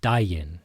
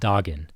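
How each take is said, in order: First: The middle consonant sounds like a Y. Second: The middle consonant sounds like a hard G. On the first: The speaker calls it right. "When G is between A and I, you make it sound like a Y" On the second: The speaker calls it wrong.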